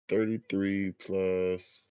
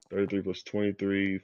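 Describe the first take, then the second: First: Drawn out while counting up; slow, thinking aloud. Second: Rattled off quickly; fast, got it now. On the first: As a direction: slowly add it up in your head. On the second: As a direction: rattle off the total. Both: Real, not acted. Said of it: "working out the sum aloud".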